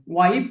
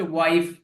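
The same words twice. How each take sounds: First: ওয়াইফ said as "wipe", ending in p; p sound. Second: ওয়াইফ said as "wife", ending in f; f sound. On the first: Teacher contrasts two words for learners, ওয়াইফ said with final p. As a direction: swap the f of ওয়াইফ for a closed-lip p. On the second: Teacher contrasts two words for learners, ওয়াইফ said with final f. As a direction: let ওয়াইফ finish on a clear f. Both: Shown as a demonstration. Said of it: "উচ্চারণের ক্ষেত্রে খেয়াল করতে হবে".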